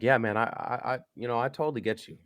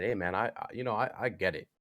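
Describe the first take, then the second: First: Higher, faster rush of agreement; keen quick yeah man; eager agreeing. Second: Said in the usual way. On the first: Retold or imitated. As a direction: tumble out the reassurance quickly and higher. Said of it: "So I'm like". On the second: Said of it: "I said".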